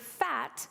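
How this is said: The word is said as one syllable. "learned to say the word fat as one syllable and not two"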